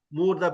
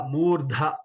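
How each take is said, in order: First: "Murdha" with an unaspirated da; common mispronunciation. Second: "Murdha" with breath pushed out on dha; aspirated dha. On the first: Teacher imitating what people say, unaspirated "Murdha". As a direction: end "Murdha" on a light da without breath. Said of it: "people say Murdha". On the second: Teacher showing Mahaprana, aspirated dha in "Murdha". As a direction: give extra air to the end of "Murdha". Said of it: "we have to give more effort". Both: Shown as a demonstration.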